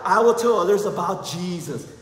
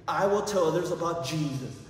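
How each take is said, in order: First: It is said very loudly. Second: It is said at normal volume.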